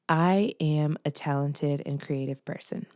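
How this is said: It sounds confident and sure.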